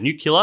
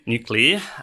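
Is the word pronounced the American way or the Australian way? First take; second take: American; Australian. First: It is pronounced in an American-influenced way. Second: It is pronounced in an Australian way. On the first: The speaker calls it wrong. "I blame U S cultural imperialism" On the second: The speaker calls it right. "How to say it like a real Aussie"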